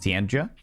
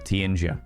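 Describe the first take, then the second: First: The J is said as a hard J. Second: The J is said like a Y sound. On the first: "Is is the J a hard J" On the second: "or is it more like a Y sound?"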